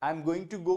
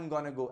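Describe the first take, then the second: First: Going and to are said as separate words. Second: Going and to merge into a quick gonna. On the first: "को क्या बोलते हैं?" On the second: "wanna gonna जो है वो contractions हैं"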